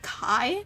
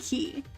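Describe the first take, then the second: First: The vowel sounds like 'eye'. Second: The vowel sounds like 'ee'. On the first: This may be how the film said it. The speaker calls it wrong. "Did they call it Kai? Like how did they pronounce it?" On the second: This is how it is supposed to be said. The speaker calls it right. "It's supposed to be Key"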